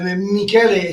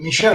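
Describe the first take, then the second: First: The middle consonant is a hard K sound. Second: The middle consonant is an SH sound. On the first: This is the Italian form of the name. "Michele, sì, Italian" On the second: This is the French form of the name. "it's more uh, French"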